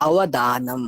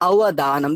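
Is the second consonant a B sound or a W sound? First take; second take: W; W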